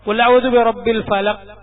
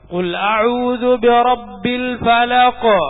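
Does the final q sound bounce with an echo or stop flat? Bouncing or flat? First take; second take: flat; bouncing. First: The final q stops flat without an echo. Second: The final q bounces with an audible echo. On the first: The speaker calls it wrong. "അങ്ങനെ ഓതാൻ പാടുണ്ടോ? പാടില്ല" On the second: The speaker calls it right. "ഖാഫെന്ന് കേൾക്കണം"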